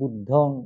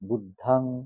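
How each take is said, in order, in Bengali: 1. দ্বিতীয় স্বরধ্বনিটি একটি O ধ্বনি। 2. দ্বিতীয় স্বরধ্বনিটি একটি A ধ্বনি।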